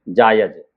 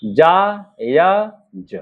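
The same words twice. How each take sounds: First: Said in the usual way. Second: Very slow जायज, split जा... य... ज; drawn-out dictation of जायज with gaps; syllable by syllable. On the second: Shown as a demonstration. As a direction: sound out जायज piece by piece. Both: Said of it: "देखिए जा का आंकड़ा लगाएंगे".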